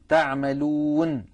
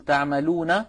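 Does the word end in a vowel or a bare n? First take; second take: bare n; vowel. First: The final n is silent with no vowel after it. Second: The final n is followed by a short vowel. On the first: The reader stops on the word. The speaker calls it right. "العرب لا تقف على متحرك بل تقف بالسكون" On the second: The word is read on into the next words. The speaker calls it wrong. "فبدلا من أن نقول تعملون"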